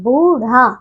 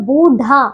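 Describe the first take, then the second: First: बूढ़ा said as "boorha"; correct flapped rh. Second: बूढ़ा said as "boodha"; unflapped hard dh in बूढ़ा; wrong hard dh. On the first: Teacher correcting pupils, बूढ़ा with flapped rh. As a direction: flap the tongue on ढ़ in बूढ़ा. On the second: Teacher showing pupils the error, बूढ़ा with hard dh. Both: Shown as a demonstration. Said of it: "बूढ़ा नहीं".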